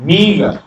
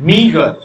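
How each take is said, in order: Both takes have the same delivery.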